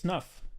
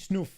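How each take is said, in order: First: The vowel is a short 'uh' sound. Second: The vowel is a long 'oo' sound. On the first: The speaker calls it right. "Like it's snuff" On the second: The speaker calls it wrong. "It wouldn't be snoof"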